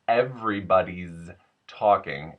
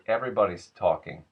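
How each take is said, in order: First: 'Everybody's' ends with a buzzing z sound. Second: 'Everybody's' ends with a hissing s sound.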